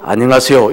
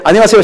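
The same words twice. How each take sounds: First: It is low and gruff, like a gangster. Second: It is raised to a high, bright pitch.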